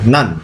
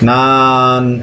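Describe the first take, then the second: First: The syllable is cut off quickly. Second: The syllable is stretched out long. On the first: The speaker calls it right. "শেষ করতেই হবে নান" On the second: The speaker calls it wrong. "নান এভাবে বলা যাবে না"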